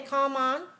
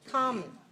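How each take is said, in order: First: The second syllable has a full, clear vowel. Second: The second syllable has a weak, reduced vowel. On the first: The speaker calls it wrong. "that's not English" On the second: The speaker calls it right. "it's stress on the first syllable"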